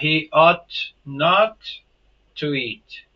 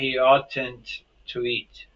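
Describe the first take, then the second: First: Ought and not are said as separate words. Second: Ought and not are merged into one contracted word. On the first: This is the more common, usual form. "muito mais comum" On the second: This form exists but is rarely seen. "existe a contração, porém não é muito vista"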